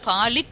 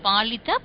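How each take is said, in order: First: The word ends without its final vowel. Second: The word ends with its final vowel. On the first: The speaker calls it wrong. "Palit no" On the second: The speaker calls it right. "you have to pronounce the complete word letter"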